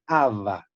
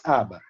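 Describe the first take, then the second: First: "ava" with a V in the middle, as in Portuguese; Portuguese-style "ava", the middle consonant a V; Portuguese V sound. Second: "aba" with a B in the middle, as in Spanish; Spanish-style "aba", the middle consonant a B; Spanish B sound. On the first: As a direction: say "ava" with a V, not a B. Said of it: "en portugués no es con B, es con V". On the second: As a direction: say "aba" with a B, not a V. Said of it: "Y en español es aba". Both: Shown as a demonstration.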